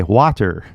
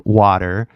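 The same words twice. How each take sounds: First: WATER with a clearly released T; hard-T WATER. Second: WATER with the T softened to a D; California WATER. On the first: Teacher imitates a learner's mistake, WATER with a hard T. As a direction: pronounce the T in WATER crisply. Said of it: "you hear the T". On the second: Teacher models California speech for learners, WATER with a D-like T. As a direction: say WATER with a flapped D for the T. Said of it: "we say water". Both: Shown as a demonstration.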